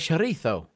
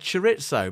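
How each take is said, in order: First: The word is pronounced the Spanish way. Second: The word is pronounced the English way. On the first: "if I was Spanish, I would say chorizo" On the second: "if I'd read it naturally, I would have said chorizo"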